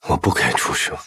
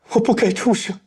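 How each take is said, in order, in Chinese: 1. 听起来懊悔，但仍隐隐有一丝希望。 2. 听起来过于戏剧化，满是夸张的悲痛。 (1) "对过去的一种愧疚，但内心仍有希望" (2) "如果情绪过于的夸张"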